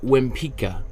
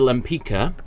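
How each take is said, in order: First: The surname begins with a W sound. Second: The surname begins with an L sound.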